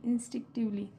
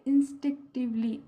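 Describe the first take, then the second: First: Said in the usual way. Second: Teacher carefully modelling "इंस्टिंक्टिवली" syllable by syllable; pronunciation model. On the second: Shown as a demonstration. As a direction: sound out "इंस्टिंक्टिवली" deliberately, chunk by chunk. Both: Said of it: "दो तीन बार pronounce करें".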